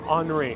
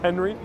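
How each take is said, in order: First: The name is said with French pronunciation. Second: The name is said with English pronunciation. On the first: "I'm going to pronounce it in French" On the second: "I know it's Henry"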